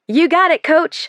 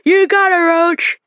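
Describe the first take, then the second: First: The words are spoken clearly. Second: The words sound muffled and slurred. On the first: This is what the speaker means to say. "I try to say" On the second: Something in the mouth garbles the words. "I try to say through the plastic in my mouth, but it sounds more like"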